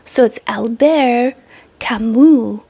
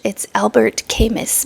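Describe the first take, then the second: First: The name is said with a French accent. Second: The name is said with an English accent.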